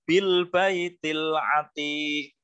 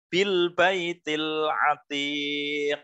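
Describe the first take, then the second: First: The final q stops flat without an echoing bounce. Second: The final q is released with a strong bounce. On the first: The speaker calls it wrong. "Bukan dibaca bil baitil atiq" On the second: The speaker calls it right. "harus ada pantulan huruf kofnya"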